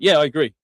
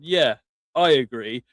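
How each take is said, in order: First: It is said at once, without hesitating. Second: It is said slowly, with slight hesitation.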